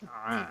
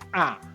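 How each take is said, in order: First: The sound is between held and released. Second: The sound is pressed hard like a glottal stop. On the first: The speaker calls it right. "Antara ditahan dan dilepas" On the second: The speaker calls it wrong. "kalau terlalu ditekan jadi"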